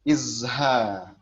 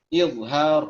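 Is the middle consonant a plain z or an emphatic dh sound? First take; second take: plain z; emphatic dh. First: The middle consonant is a plain z sound. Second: The middle consonant is an emphatic dh sound. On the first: The speaker calls it wrong. "nyebutnya pakai zai" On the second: The speaker calls it right. "izhar pakai dha ya"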